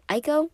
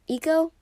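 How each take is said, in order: First: The name begins with an 'eye' sound. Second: The name begins with an 'ee' sound.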